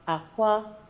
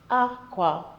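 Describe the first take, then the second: First: It is said with the tone pattern for eggs. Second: It is said with the tone pattern for cloth. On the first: The word means eggs. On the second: The word means cloth.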